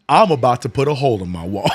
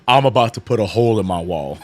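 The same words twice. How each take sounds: First: It is said in an angry, raging voice. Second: It is said in a calm, flat voice.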